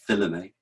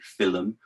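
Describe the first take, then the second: First: The word is said with three syllables. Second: The word is said with two syllables. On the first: "or maybe a three" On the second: "a two-syllable pronunciation"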